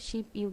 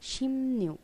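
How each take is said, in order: First: The syllables join with a plain b sound. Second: The syllables join with an m-n sound. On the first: The speaker calls it wrong. "আসলে উচ্চারণটা হবে শিব ইউগ না" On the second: The speaker calls it right. "এটা একটু মনে রাখবেন"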